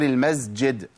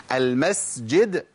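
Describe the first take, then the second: First: المسجد slowly as "al-mazjid"; wrong voiced sound before j in المسجد; mistaken z. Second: First المسجد slowly as "al-masjid"; voiceless sīn, drawn out, in المسجد; clear s. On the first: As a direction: buzz the s of المسجد into a z. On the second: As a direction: hiss a full s before the j in المسجد. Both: Shown as a demonstration. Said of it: "المسجد غير المسجد".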